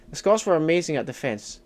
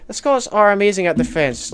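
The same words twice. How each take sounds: First: Said in the usual way. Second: ARE punched, whole line louder and higher; stress on ARE. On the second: Real, not acted. Streamer corrects viewer on Scots' defence, stress on ARE. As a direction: hit the word ARE in proud correction.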